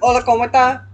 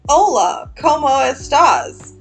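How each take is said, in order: First: It is quick and casual, with the final s dropped. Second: It is slow and careful, with the final s. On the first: This is how family members speak at home. "your aunts and your uncles would be like" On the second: This is the textbook way taught at school. "it sounded like a fucking episode of Dora the Explorer"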